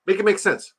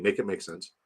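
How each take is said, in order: First: High-pitched, put-on Indian accent; Indian-sounding accent. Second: Said in the usual way. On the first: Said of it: "my Jamaican accent sounds Indian".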